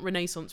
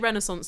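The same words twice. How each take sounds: First: The word has a British pronunciation. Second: The word has an American pronunciation. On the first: This is how British people say it. "which is naturally how I'd say it" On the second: This is how Americans say it. "they say Renaissance"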